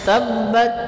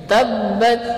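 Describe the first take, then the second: The two takes are said the same way.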